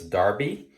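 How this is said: The first vowel sounds like 'dar', British style. This is how it is said in Europe and the UK. "if you're in parts of Europe or the U K, it's Darby"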